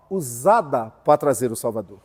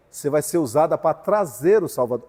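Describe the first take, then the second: First: "usada" stretched out and set apart by a pause; slow down and lean on the word "usada"; stress on USADA. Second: Said in the usual way. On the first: Retold or imitated. Repete destacando a palavra usada. (ênfase em "usada", dita devagar e destacada)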